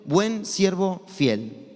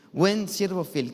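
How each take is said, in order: First: Buen siervo fiel, each word drawn out slowly; slow titled phrase. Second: Said in the usual way. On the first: Shown as a demonstration. ("buen siervo fiel" lento y solemne, como un título) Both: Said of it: "la cual le puse de nombre".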